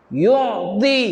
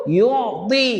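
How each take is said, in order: No difference in how they are said.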